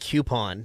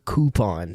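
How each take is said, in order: First: The first syllable sounds like 'kyoo'. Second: The first syllable sounds like 'koo'. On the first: This is how the speaker grew up saying it. "I was brought up saying coupon with the hard U" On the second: This is how many other people say it. "A lot of people I find say coupon"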